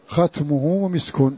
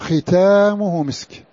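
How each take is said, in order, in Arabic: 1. لا يأتي حرف مد طويل بعد صوت التاء. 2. يأتي حرف مد طويل 'a' بعد صوت التاء. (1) "ولما كانت هذه الألف محذوفة في المصحف جاز أن تكون ختمه" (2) "ألف بعد التاء نطقا لا خطا، الكل يقرأها ختامه مسك"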